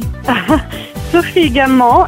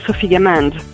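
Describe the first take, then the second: First: The surname is said with a French pronunciation. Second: The surname is said with an English pronunciation. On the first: "is the French pronunciation" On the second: "but you can call me"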